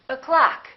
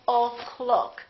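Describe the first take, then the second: First: The first vowel is reduced to uh. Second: The first vowel is a full O. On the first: The speaker calls it right. "this one disappears and becomes this uh sound" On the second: The speaker calls it wrong. "We don't say"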